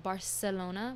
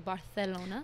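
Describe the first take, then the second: First: The c is said with an s sound. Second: The c is said with a th sound.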